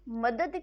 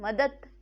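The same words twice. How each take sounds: First: The word ends with a voiced d sound. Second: The word ends with a voiceless t sound. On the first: "दौ की जगह" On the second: "दौ की जगह त का प्रयोग हो जाना"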